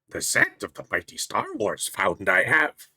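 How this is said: It is said in a put-on character voice.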